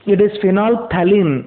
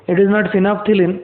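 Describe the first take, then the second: First: Phenolphthalein slowly as "fi-nol-tha-lin"; corrected pronunciation. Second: Phenolphthalein wrongly said "fi-naf-thi-lin"; mispronunciation shown. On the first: Teacher corrects students, phenolphthalein slowly said "finol-thalin". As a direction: keep a clear "nol" then "thalin" in phenolphthalein. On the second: Teacher rejects the children's version, phenolphthalein said "finafthilin". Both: Shown as a demonstration.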